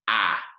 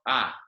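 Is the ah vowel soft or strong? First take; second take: strong; soft. First: The vowel is strong and full. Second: The vowel is soft and weak. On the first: This is how the vowel sounds in Spanish. "pronounced much more strongly" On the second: This is how the vowel sounds in English. "this kind of soft ah noise"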